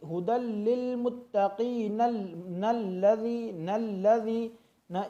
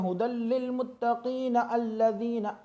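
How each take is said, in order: First: मुत्तकीन joined straight into नल्लज़ी, alif dropped, slow; correct joining. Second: हुदल लिल मुत्तकीन अल्लज़ीना read with the alif sounded; wrong joining. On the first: Teacher showing the correct joined reading. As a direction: slide मुत्तकीन into नल्लज़ी slowly. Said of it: "इस तरह हमें इसको अदा करना है". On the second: Teacher showing the wrong way to join. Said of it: "अल्लज़ीना नहीं पढ़ा जाएगा". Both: Shown as a demonstration.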